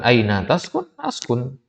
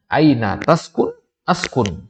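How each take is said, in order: First: Aina taskun with a rising question tune. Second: Aina taskun said firmly, a bit louder, Askun falling. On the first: Teacher contrasts for students: Aina taskun as a question. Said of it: "Itu kan ada tanya". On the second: Teacher shows students the conditional: firm Aina taskun. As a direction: say Aina taskun as a firm statement, not a question. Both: Shown as a demonstration.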